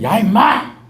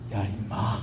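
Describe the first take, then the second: First: It is shouted harshly and intimidatingly. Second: It is said warmly and gently. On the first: The speaker is rough and makes others tense. The speaker calls it wrong. "옛날에 예수 믿기 전에 성령으로 충만하기 전에" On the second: The speaker is kind and lifts the mood. The speaker calls it right. "이제 예수님 믿고 성령이 충만하니까"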